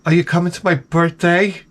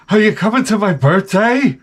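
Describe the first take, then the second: First: Lightly voiced, higher-pitched coworker; a mild imitation of her asking; young coworker. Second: High, put-on young coworker voice; mock her with a much higher voice; exaggerated coworker impression. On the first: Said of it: "she says to me". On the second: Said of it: "She doesn't talk like that".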